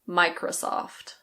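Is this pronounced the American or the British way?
American. The last O has an American sound. "In American English, the last O is a little bit different"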